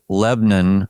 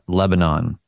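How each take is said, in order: First: It uses the local pronunciation of the name. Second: It uses the standard pronunciation of the name. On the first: This is how people there say it. The speaker calls it right. "we say Lebanon" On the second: This is how outsiders say it. The speaker calls it wrong. "not Lebanon"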